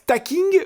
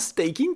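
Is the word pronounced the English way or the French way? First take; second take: French; English. First: The word is pronounced with French sounds. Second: The word is pronounced with English sounds. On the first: "à la française" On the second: "si mes cours d'anglais sont pas trop loin"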